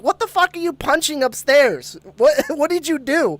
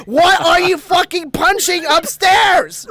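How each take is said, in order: First: Imitating a high-pitched yell at mom; retold yell. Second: Slow, high, loud shout, every word drawn out; retold yell. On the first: To mom upstairs after a bang, retold yelling. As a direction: call upstairs in mock outrage. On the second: From the step to mom who can't hear, retold yelling. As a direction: bellow it upstairs, imitating yourself. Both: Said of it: "So I yell at my mom".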